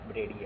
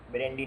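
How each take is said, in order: First: ब्रेडी said with no n, bray-dee; correct pronunciation. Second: ब्रेंडी said with an added n sound, bren-dee; the mistaken ब्रेंडी with a nasal n before the d; wrong pronunciation. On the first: Teacher giving students the right form, ब्रेडी without an n. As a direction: clean ब्रेडी, straight from e to d. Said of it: "ब्रेडी है". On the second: Teacher warning students off the wrong word, ब्रेंडी with an n. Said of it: "ब्रेंडी नहीं है भैया". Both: Shown as a demonstration.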